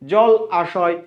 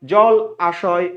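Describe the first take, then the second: First: The two words are kept apart, said slowly. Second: The two words are kept apart, said slowly.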